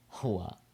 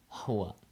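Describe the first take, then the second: First: The first h sound is a soft breath. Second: The same.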